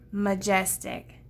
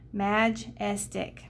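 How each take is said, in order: First: The first vowel is a weak uh sound. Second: The first vowel is a clear short a. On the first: The speaker calls it right. "let's change this to a schwa" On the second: The speaker calls it wrong. "this changes it from an open to a close"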